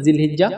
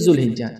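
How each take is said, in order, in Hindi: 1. पहले अक्षर में 'i' स्वर है। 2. पहले अक्षर में 'u' स्वर है। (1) "जी और जू दोनों आप बोल सकते हैं" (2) "जी और जू दोनों आप बोल सकते हैं"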